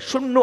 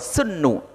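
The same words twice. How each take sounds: First: The word begins with a 'sh' sound. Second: The word begins with an 's' sound. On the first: "bisyin dengan sin al-mu'jamah yang bertitik" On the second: "sin yang tidak bertitik"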